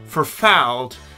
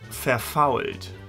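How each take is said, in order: First: It is said with an American-style accent. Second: It is said with a standard German accent. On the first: This is the Pennsylvania German word. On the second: This is the original German word.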